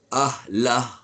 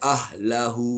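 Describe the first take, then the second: First: The word ends on the consonant, no final vowel. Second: The word ends with a drawn-out final vowel. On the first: The reader stops after this word. The speaker calls it right. "kalau kita nak berhenti dia tak boleh baca panjang" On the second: The reading continues on to the next word. The speaker calls it wrong. "tak boleh panjang, tak boleh baca ahlahu, tak boleh"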